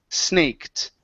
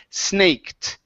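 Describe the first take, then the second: No difference in how they are said.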